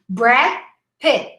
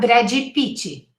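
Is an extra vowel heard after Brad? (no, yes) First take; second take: no; yes. First: The D ends in a stop with no vowel. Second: An extra vowel is added after the D. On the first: The speaker calls it right. "Look at the final stop" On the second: The speaker calls it wrong. "not Brady Pitt, four syllables"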